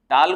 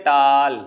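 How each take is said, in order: First: Said in the usual way. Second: टाल stretched out long through the middle; टाल pulled unnaturally long; broken mid-word. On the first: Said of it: "कितनी बार में पढ़ रहे हैं". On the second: Shown as a demonstration. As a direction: drag out the vowel of टाल as if halting inside it. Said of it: "अगर बीच में कहें".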